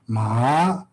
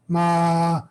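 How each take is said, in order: First: The syllable is said with a rising tone. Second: The syllable is said with a high tone. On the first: The word means dog. "is rising tone ma" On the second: The word means horse. "high tone"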